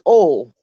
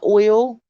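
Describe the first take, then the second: First: It is said with the local dialect pronunciation. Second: It is said with the standard pronunciation. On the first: The speaker calls it right. "It's oil" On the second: The speaker calls it wrong. "No, it's not oil"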